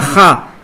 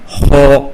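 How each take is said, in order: First: The vowel sounds like an open 'a'. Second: The vowel sounds like a darker 'o'. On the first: The speaker calls it wrong. "on ne dit pas Kha" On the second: The speaker calls it right. "on dit Kha"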